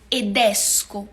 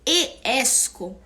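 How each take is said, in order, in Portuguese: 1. Um som de d liga as duas vogais. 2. As duas vogais se encontram sem d no meio. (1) "a gente tem que pronunciá-lo. Então, eu falo edesco" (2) "Em vez da gente dizer e esco"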